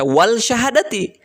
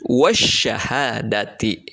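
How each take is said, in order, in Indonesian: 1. Bunyi l terdengar sebelum sh. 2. Bunyi l menyatu sepenuhnya ke dalam sh. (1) "Tidak dibaca wal syahadati" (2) "tapi wasyahadati ya. Diidgomkan langsung ke sya"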